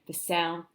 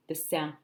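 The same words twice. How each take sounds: The two takes are said the same way.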